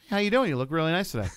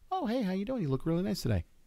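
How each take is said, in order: First: It is said with a bit more aggression. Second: It is said at a mild, low intensity.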